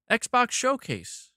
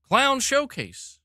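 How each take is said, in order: First: Slow, drawn-out mock event announcer; mock announcement. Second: Slow sarcastic announcer drawl for the clown punchline; mock clown announcement. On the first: Streamer mocking the Xbox Showcase to chat, slow sarcastic announcer drawl. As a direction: drag out the name like a sarcastic hype intro. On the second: Streamer renaming the event for chat, slow mocking announcer drawl. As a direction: stretch out "Clown Showcase" like a circus barker's joke.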